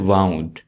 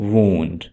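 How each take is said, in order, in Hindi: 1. स्वर 'cow' में 'ow' जैसा सुनाई देता है। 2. स्वर 'moon' में 'oo' जैसा सुनाई देता है। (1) "आमतौर पर लोग इसे पढ़ते हैं वाउंड, तो ये गलत है।" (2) "आप इसे पढ़िएगा वुंड"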